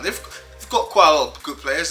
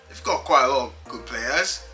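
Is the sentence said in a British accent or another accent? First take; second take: British; another. First: It is said in a put-on British accent. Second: It is said in his usual non-British accent.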